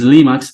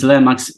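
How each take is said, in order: First: The first syllable has a long 'ee' vowel. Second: The first syllable has a short 'eh' vowel. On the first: This is how it is said in the US. "in the U S is Limax" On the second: This is how it is said in Europe. "in Italy and in Europe is Lemax"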